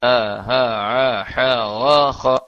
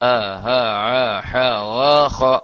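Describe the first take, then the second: No difference in how they are said.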